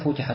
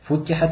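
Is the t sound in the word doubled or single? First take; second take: single; doubled. First: The t sound is single and short. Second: The t sound is doubled and held longer. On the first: The gates will be opened. "не просто футихат" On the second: The gates will be opened in great number. "и вот это вот футихат, что указывает на многочисленность"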